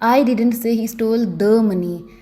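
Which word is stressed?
the. The word 'the' carries the stress. Some other money may have been stolen. "अगर मैं दी पर जोर डालकर बोलूँगी"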